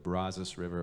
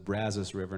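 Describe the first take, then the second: First: The vowels of Brazos are short and narrow. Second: The vowels of Brazos are drawn out wide. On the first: The speaker calls it wrong. "or the Brazos River" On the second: The speaker calls it right. "is pronounced the Brazos River"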